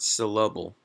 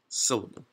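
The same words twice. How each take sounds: First: The stress falls on a later syllable. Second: The stress falls on the first syllable. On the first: The speaker calls it wrong. "Not syllable" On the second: The speaker calls it right. "but it's the first one"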